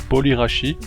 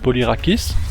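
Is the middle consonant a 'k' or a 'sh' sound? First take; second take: sh; k. First: The middle consonant sounds like a soft sh. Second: The middle consonant sounds like a hard k. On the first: The speaker says it this way. "moi je dis Polyrachi" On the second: Some other people say it this way. "Certains disent Polyrakis"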